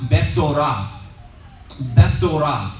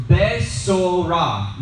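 First: Besorah repeated at normal pace, beh-so-RAH; Hebrew besorah. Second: Besorah drawn out slowly, beh-so-RAH; slow Hebrew besorah, stress on the last syllable. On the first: Teacher repeating the Hebrew word for the class. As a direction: say Besorah again for students to copy. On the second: Teacher slowly pronouncing the Hebrew word. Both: Shown as a demonstration. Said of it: "this Hebrew word right here".

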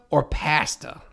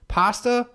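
First: "pasta" with a flat a as in cat, PA-sta; pronunciation. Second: "pasta" with a broad ah, pah-sta; pronunciation. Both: Shown as a demonstration. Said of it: "does he say pasta, pasta, or pasta?".

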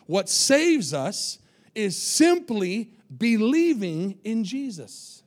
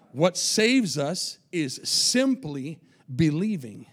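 First: What saves us is simply believing said very slow, each word weighed; slow emphatic repeat. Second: "saves" stressed, line said slowly and falling; slow emphatic line. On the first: Preacher repeating the key line for the church, slowly. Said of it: "Can I say that again over here?". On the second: Preacher stating the key point to the church, slowly. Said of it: "Can I say that again". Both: Shown as a demonstration.

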